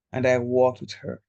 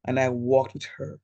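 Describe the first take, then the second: No difference in how they are said.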